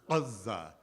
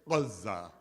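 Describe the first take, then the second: First: It starts with a heavy sound from the throat. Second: The same.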